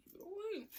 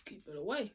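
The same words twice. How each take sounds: First: High-pitched mock warning, softer; a silly high echo of keep it away; squeaky high repeat. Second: Said in the usual way. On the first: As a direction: pitch it way up and pull back the volume.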